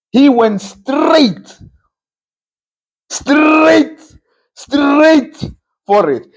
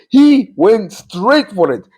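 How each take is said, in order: First: Straight stretched out high and slow, said three times; drawn-out emphasis. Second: Said in the usual way. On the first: Real, not acted. Pundit stresses the coach's directness, drawn out and high. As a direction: lean hard on each straight, slowly and high.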